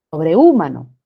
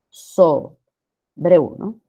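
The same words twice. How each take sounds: First: "Sobrehumano" as sobre-Ú-mano, loud stress on the U; mispronunciation demo. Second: Slow "sobrehumano" as so, breu, with eu joined; "sobrehumano" in beats, the e and u as one glide; syllable by syllable. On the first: Teacher shows a word that does not exist, misstressed. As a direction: punch a separate U in "Sobrehumano", lower overall. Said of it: "Esa palabra no existe". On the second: Teacher gives students the correct division, syllabified. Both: Shown as a demonstration.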